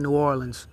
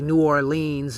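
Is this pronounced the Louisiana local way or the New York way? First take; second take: Louisiana; New York. First: It is pronounced the way locals say it. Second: It is pronounced the way New Yorkers say it. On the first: A local is saying the city's name. The speaker calls it right. "We say New Orleans" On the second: An outsider is saying the city's name. The speaker calls it wrong. "They say New Orleans, and you know that's cringe to me"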